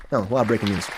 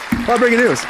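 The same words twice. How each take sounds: First: Said in the usual way. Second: Higher hyped announcer read of "A lot of breaking news"; playful mock newscaster hype. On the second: Shown as a demonstration. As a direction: sell it like a news teaser.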